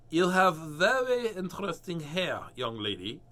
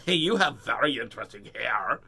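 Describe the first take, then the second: First: Slow, louder, overly polite; be politely taken aback; a hint of a polite hairdresser. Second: Loud, rude, sneering; mean version. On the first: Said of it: "the hairdresser said politely". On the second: Shown as a demonstration. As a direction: say it rudely to her face. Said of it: "mean to say it like that".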